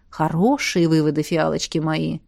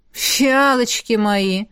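First: Low, softening, smiling praise; warm praise. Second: Протяжное недовольное фырканье наставницы; растянуть обращение с лёгкой укоризной; фыркая. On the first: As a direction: praise your pupils tenderly, voice lowered. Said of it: "тепло улыбнулась Александра". (тепло, с улыбкой) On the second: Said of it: "фыркнула наставница". (недовольно фыркая) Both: A narrator's reading.

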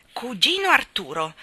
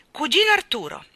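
First: Louder, rising call at the door; calling again. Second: Loud, high call through a door. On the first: Mary Poppins calling her cousin again, rising. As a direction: call once more, coaxing. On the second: Mary Poppins calling her cousin through the keyhole, loud. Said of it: "chiamò attraverso il buco della serratura". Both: Acted.

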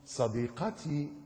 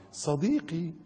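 First: Slow, soft, drawn-out croon; mock lovesick sheep. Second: Higher coy answer; mock simpering goat. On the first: Youth radio sheep calls to his girlfriend, mock lovesick. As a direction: stretch it softly like a smitten sheep. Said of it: "يطلع لك خروف". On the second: The goat replies to the sheep on radio, mock simpering. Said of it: "تروح المعزة رد عليه".

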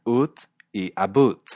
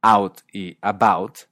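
First: "ut y about" with an oo vowel; the "oot and aboot" parody; mock "oot". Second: American "out y about". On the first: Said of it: "dicen ut y about". ("ut" con U burlona) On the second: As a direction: open aw in "out y about", slow. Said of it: "en lugar de decir". ("out y about" estadounidense) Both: Shown as a demonstration.

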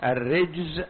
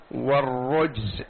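First: "الرجز" with an i after the r, ar-rijz; kasra on ra. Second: "والرجز" with a u after the r, war-rujz; damma on ra. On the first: Teacher showing both readings, "الرجز" said with kasra, ar-rijz. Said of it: "يأتي بكسر الراء وبضمها". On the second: Teacher showing both readings, "والرجز" said with damma, war-rujz. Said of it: "بضم الراء". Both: Shown as a demonstration.

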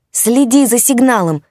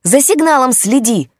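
First: Loud, high urgent shout. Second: Loud, high shout, "сигналом" stressed. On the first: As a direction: shout across the noisy room. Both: A narrator's reading. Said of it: "пытался докричаться он".

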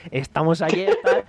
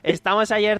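First: Giggling through the quote; can't hold back a laugh. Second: Said in the usual way. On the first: Retold or imitated. Retelling the shop scene to a friend, laughing. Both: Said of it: "Sí, sí, o sea, "Estamos ayer".

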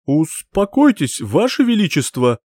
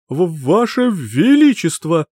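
First: Hysterical plea. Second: Slow, high, stammering panic; stuttering in fear. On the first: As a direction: beg the king to calm down in panic. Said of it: "превратился в истеричное создание". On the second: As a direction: stammer out the title in terror. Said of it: "заикался Гуннар". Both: Acted.

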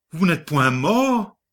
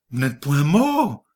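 First: Repeat, pitched higher, mort falling; stunned repeat climbing higher on mort; second, higher take of "Vous n'êtes point mort?"; stammered shock, higher. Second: Lightly stammered disbelief, mort falling; a mild stunned stammer on mort; first faltering take of "Vous n'êtes point mort?"; stammered shock. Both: A narrator's reading. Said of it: "Il bégaya".

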